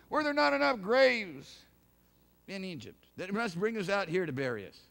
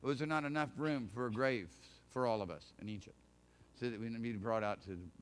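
First: Mock complaint. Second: Soft, lower, reflective "not"; quiet rephrasing. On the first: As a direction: hurl "not" as a loud sarcastic grumble. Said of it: "They wouldn't believe what was told them". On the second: Shown as a demonstration. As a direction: ask it quietly, turning it over. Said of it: "Or was, really".

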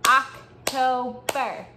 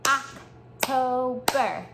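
First: "October" drawn out syllable by syllable; teacher claps "October" for kids to echo; model word. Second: "October" stretched very slowly; teacher gives pause for kids' turn; slow syllables. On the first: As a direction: say "October" slowly, clapping its syllables. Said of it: "Repeat after me". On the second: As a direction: draw out "October" so kids can clap along. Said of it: "Now it's your turn". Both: Shown as a demonstration.

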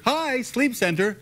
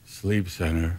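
First: High, slow, bright-toned greeting; cheery receptionist. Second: Low, soft, deadpan phone answer; curt low receptionist. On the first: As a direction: sing it out like a friendly receptionist. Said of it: "you think it was". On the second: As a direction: answer in a dull low monotone. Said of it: "He went". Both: Retold or imitated.

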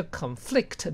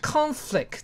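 First: "conflict" stressed on the second syllable, con-FLICT; verb stress. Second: "Conflict" stressed on the first syllable, CON-flict; noun stress. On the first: Teacher switching conflict to a verb, stress on FLICT. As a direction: weaken the first syllable of "conflict" and hit FLICT. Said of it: "它当动词的时候呢". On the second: Teacher showing the class Conflict as a noun, stress on CON. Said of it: "这个字当名词用". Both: Shown as a demonstration.

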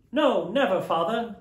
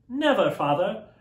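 First: Put-on higher, louder children's promise; children vowing to their father; children crying out. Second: Put-on higher, louder chorus of children; children answering their father; children crying out. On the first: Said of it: "they all cried again". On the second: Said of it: "they all cried".

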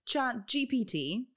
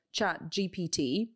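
First: "Chat G P T" with Chat said like shat and G like zhee; stumbling over Chat GPT. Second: "Chat G P T" again with shat and a zhee-like G; stumbling over Chat GPT. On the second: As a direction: fumble "Chat G P T", sh for ch and zh for G. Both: Real, not acted. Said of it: "I still can't pronounce this Chat G P T".

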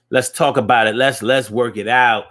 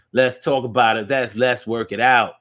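No difference in how they are said.

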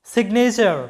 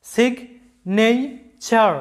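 First: Said in the usual way. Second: signature very slowly in three separate beats, সিগ, নে, চার; syllable by syllable. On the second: Shown as a demonstration. Teacher counting syllables for learners, signature broken slowly into three. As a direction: pause after each syllable of signature. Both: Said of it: "তিনবার উচ্চারণ করতে হচ্ছে".

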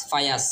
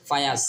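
No difference in how they are said.

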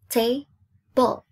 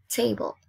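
First: TABLE split into ta, ble, louder; syllable by syllable. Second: Said in the usual way. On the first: Shown as a demonstration. Teacher giving pupils the answer, syllable by syllable. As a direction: break "table" into two firm beats. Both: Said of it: "So two syllables".

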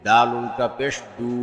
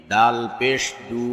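First: Final "দু" held long; drawn-out vowel. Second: Final "দু" cut short; quick short vowel. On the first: Teacher demonstrating ulta pesh, long "দু". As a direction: stretch the last "দু" for one alif. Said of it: "একালিপ টেনে পড়তে". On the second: Teacher demonstrating normal pesh, short "দু". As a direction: keep the last "দু" brief, not held. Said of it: "তাড়াতাড়ি করতে হয়". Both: Shown as a demonstration.

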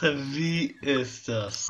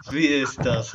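First: Very slow, dragged delivery; slow drawn out. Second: Said in the usual way. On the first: Shown as a demonstration. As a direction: stretch every word slowly. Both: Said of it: "repeated slower".

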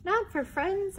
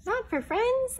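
First: Squeaky question. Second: High squeaky questioning; squeaky surprise. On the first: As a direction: ask again more gently. Repeated take of Mouse line. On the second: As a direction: ask in a tiny amazed voice. Mouse surprised, first take. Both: Acted.

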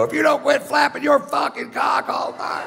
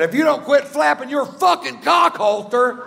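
First: Much higher, big shout across the theater; shouting so seventeen hundred people hear; full shout. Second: High, strained mock yell; a lightly hammed-up yell at the chatty woman; retold yell. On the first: Retold or imitated. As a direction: belt it so the whole room hears. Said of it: "seventeen hundred people hear me go". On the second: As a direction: yell it back at her across the row. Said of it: "I said".

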